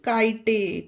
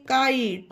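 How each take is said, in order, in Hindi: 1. यह शब्द एक अतिरिक्त 'e' स्वर पर खत्म होता है। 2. यह शब्द 't' ध्वनि पर खत्म होता है। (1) "ना कि काइटे" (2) "ई का कोई उच्चारण नहीं होगा"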